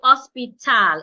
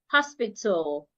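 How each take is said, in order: First: The last syllable has a full, clear A vowel. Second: The last syllable has a reduced, barely heard vowel. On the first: The speaker calls it wrong. "I would not say hospital. It wouldn't be t, al, tal" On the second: The speaker calls it right. "so it becomes t, l, tul, hospital"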